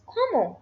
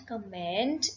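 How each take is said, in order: First: "comment" as "KOH-mo", final NT silent; higher, louder "comment", ending on an open O; correct French pronunciation. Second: "comment" with an English-style sounded final ND; wrong pronunciation. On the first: Teacher correcting the first word, French pronunciation. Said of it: "it is". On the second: Teacher warning learners of the mistake, wrong pronunciation. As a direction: say "comment" like "command". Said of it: "the first word is not comment". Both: Shown as a demonstration.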